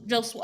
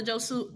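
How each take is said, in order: First: Josu said as "JOE-sway"; corrected pronunciation. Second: Josu said as "JOE-soo"; mispronounced name. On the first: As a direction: end Josu on a "sway" sound. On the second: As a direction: end Josu on a plain "soo". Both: Real, not acted. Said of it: "I be saying it wrong".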